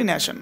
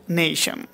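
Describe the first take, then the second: First: নেশন with short pure e; everyday pronunciation. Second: নেশন with gliding "ay"; correct pronunciation. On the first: Teacher showing the usual habit, নেশন with short e. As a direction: say নেশন as "ne-shan". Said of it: "কি বলি?". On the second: Teacher giving the real pronunciation, নেশন as "nay-shan". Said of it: "আসলে উচ্চারণটা কি বলবো". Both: Shown as a demonstration.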